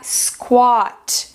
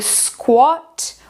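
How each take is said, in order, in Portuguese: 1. A vogal é um som de A longo. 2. A vogal é um som de O curto. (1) "em americano... vai ficar com aquele som comprido de A" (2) "Todo esse som de O no britânico"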